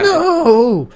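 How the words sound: The voice cracks, sounding raw and real.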